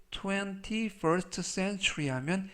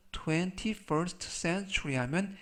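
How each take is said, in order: Both takes have the same delivery.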